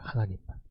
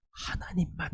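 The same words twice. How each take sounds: First: Hushed, softer repeat of 하나님만; 하나님만 repeated as a soft whisper; whispered emphasis. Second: Said in the usual way. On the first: Shown as a demonstration. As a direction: drop to a whisper on 하나님만 for weight. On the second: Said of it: "의지하는 거예요".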